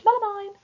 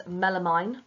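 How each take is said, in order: First: High, loud posh schoolgirl; posh girl voice. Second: Said in the usual way. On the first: Retold or imitated. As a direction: squeal it like a posh Cheltenham girl. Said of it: "sounded like a posh girl that goes to Cheltenham College". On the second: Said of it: "sounded like a posh girl".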